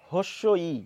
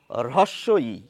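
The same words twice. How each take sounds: First: "হস্য ই" with h before the vowel and no r; common mispronunciation. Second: "হ্রস্ব ই" with r then breathy h, low and careful; correct pronunciation. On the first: Retold or imitated. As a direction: say it "হস্য ই" the way many educated speakers do. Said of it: "অনেকেই বলছেন". (ভুল উচ্চারণে "হস্য ই") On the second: Shown as a demonstration. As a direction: demonstrate "হ্রস্ব ই" slowly with a clear r-h sound. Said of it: "এটি কিভাবে উচ্চারণ করব?". (শুদ্ধ উচ্চারণে ধীরে "হ্রস্ব ই")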